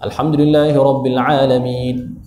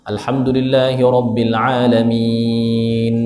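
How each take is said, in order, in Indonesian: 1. Bunyinya dipotong pendek. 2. Bunyinya dipanjangkan terlalu lama. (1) "Ada yang jenis taksir, kurang" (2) "ada yang jenis baca macam tu, hmm, dia jadi dia apa, ifrat situ tu"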